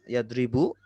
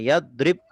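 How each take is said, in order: First: The word ends with a short u vowel. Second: The word ends on a consonant, no vowel. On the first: The verb is in the nominative (rafa) case. "akhirnya dhammah" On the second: The verb is in the jussive (jazm) case. "akhirnya su sukun"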